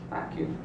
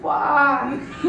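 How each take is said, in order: First: The phrase is said briefly, without lengthening. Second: The phrase is stretched out and held long. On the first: The relationship is fine. "When you say it like this" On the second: It is a warning to be careful. "when you hold it out and say"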